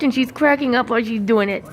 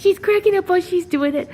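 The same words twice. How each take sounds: First: Said in the usual way. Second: Higher repeat. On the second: Shown as a demonstration. Owner repeats remark to bird in higher voice. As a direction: say it again, higher and quick. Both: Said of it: "repeats line higher".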